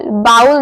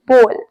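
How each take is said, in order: First: बाउल said with a two-part ow glide, like baa-ool; the wrong way to say bowl, बाउल as baa-ool; wrong pronunciation. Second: बोल with one long pure o sound, rhymes with goal; right pronunciation. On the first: Teacher shows the mistake, बाउल glided as baa-ool. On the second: Teacher gives the right form, बोल with pure long o. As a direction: say bowl as बोल, a single smooth o. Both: Shown as a demonstration. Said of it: "बाउल नहीं, बोल".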